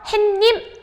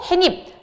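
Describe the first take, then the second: First: An extra n-like sound comes before 님. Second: No extra sound is inserted before 님. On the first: The speaker calls it wrong. "햇님 아니라고 했죠" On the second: The speaker calls it right. "사이소리 현상도 일어나지 않기 때문에 발음도 해님"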